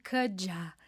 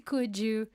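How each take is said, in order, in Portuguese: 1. As duas palavras se unem em um som só, reduzido. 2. As duas palavras são ditas por completo e separadas. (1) "Tem até um movimento coulda" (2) "vai pelo básico que funciona"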